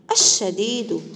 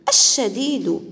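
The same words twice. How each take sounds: First: الشديد said evenly, both د sounds clear; calm demo pronunciation. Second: الشديد said louder, both د sounds crisp; louder demo pronunciation. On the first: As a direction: repeat الشديد calmly, clear د. (نطق الشديد بهدوء ودال واضحة) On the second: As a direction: call out الشديد, hitting each د. (نطق الشديد بصوت أعلى ودال واضحة) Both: Shown as a demonstration. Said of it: "حرف الدال في وسط وآخر الكلمة".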